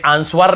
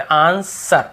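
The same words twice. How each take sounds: First: "आंसर" said as aan-swar, w sounded; wrong pronunciation. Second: Said in the usual way. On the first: Shown as a demonstration. Teacher showing the forbidden reading of answer, mispronounced with w. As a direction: put an audible w into "आंसर". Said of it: "हमें आंसर नहीं पढ़ते". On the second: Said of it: "बस आंसर".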